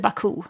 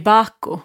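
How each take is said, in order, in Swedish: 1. Namnet uttalas på standardsätt. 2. Namnet uttalas på tyskpåverkat sätt. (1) "det heter Baku" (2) "efter alla år i Tyskland så säger jag ju Baku"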